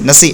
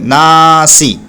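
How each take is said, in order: First: The first vowel is short, not drawn out. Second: The first vowel is long and drawn out. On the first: The speaker calls it wrong. "नसी नसी नसी ऐसे नहीं पढ़ेंगे" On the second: The speaker calls it right. "ना क्यों खींच रहे हैं? क्योंकि ज़बर के बाद अलिफ आ रहा है"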